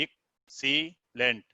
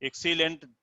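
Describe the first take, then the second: First: excellent slowly split into three beats; syllable by syllable. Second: Said in the usual way. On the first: Shown as a demonstration. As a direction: break excellent apart as ek, see, lent with pauses. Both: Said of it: "आप देखिए".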